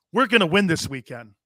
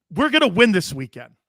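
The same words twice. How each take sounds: First: Lightly put-on Southern accent; a touch of Southern in the quote. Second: Louder put-on Southern accent. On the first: Host quoting coach McCarthy's win promise, light Southern accent. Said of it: "my Southern accent". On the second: Host repeating coach McCarthy's promise, emphatic Southern accent. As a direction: push the Southern accent harder. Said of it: "my, my Southern accent".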